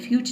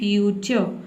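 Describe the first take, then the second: First: The word ends abruptly on the ch sound. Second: The word ends with an uh vowel after ch. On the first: The speaker calls it wrong. "फ्यूच नहीं" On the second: The speaker calls it right. "अ का sound आपको बोलना है"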